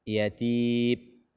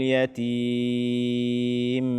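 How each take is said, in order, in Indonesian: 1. Huruf m akhir tidak memiliki bunyi sengau. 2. Huruf m akhir memiliki dengung sengau yang terlalu panjang. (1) "tidak ada suara yang keluar dari hidung" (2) "ini sudah berlebihan di dalam memberikan hak gunnahnya"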